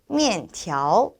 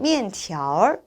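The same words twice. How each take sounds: First: The word ends without an added r sound. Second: The word ends with an added r sound.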